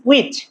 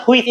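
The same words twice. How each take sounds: First: "which" as wich, plain w; taught pronunciation. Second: "which" said with an h, as hwich; wrong opening sound. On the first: Teacher corrects learners, "which" with a clean w. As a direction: open "which" on w with no h. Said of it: "it's which". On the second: Teacher shows what to avoid, "which" as hwich. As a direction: put an h into the start of "which". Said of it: "it's not which". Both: Shown as a demonstration.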